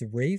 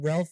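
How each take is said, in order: First: The name is said with a long A, like 'Rafe'. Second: The name is said with an L sound, like 'Ralf'. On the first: The speaker calls it right. "It's Rafe" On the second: The speaker calls it wrong. "it's not Ralph Fiennes"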